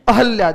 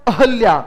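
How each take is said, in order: No difference in how they are said.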